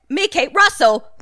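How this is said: The name is said in a Cockney accent.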